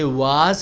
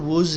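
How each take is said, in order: First: The vowel is a full open 'ah' sound. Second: The vowel is a short reduced 'uh' sound. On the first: The speaker calls it wrong. "वाज नहीं होता" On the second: The speaker calls it right. "इसका sound होता है वुज"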